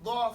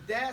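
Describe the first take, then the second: First: A heavy, emphatic d sound. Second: A plain, light d sound. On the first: "the letter is dad" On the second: "The letter is dog"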